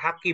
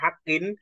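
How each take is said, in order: First: The word ends on a plain vowel. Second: The word ends with an added n sound. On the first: The speaker calls it right. "haki dibaca haki" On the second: The speaker calls it wrong. "bukan hakin"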